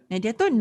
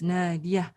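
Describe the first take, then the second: First: The full ending '-atun' is pronounced. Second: The ending is dropped after the 'a'. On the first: The speaker calls it wrong. "But you do not pronounce it as Nadiatun" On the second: The speaker calls it right. "the ta marbuta at the end has been muted"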